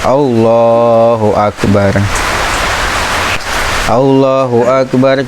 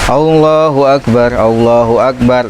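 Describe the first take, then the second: First: A short pause separates the two phrases. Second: The two phrases run together without a pause. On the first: The speaker calls it right. "Jadi sunahnya ada jeda sejenak" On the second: The speaker calls it wrong. "nah itu uh, kurang bagus ya"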